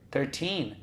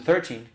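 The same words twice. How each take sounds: First: It is said carefully with strong final syllable. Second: It is said quickly, sounding like thirty. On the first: The speaker calls it right. "uma sílaba no thir e outra forte no teen" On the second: The speaker calls it wrong. "Fala rápido, parece que está falando thirty"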